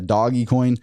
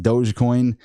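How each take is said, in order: First: The first part sounds like 'doggy', with a hard g. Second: The first part sounds like 'dohj', with a soft g. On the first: "some people think it's doggy coin" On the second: "some people say it's Dogecoin"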